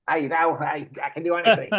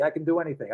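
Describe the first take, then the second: First: Put-on a faint stab at an Australian accent on "I can do anything"; a loose, unconvincing Australian accent, admitting it's off; half-hearted Australian accent. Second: Said in the usual way. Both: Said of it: "I can't do an Australian accent".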